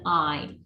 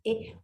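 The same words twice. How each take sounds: First: The vowel sounds like the one in find. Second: The vowel sounds like the one in thin. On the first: "and in find" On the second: "the letter I in thin"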